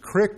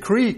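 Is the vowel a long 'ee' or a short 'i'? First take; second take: short i; long ee. First: The vowel is a short 'i' sound. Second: The vowel is a long 'ee' sound. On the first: "it's a crick to me" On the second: "Some of you said creek"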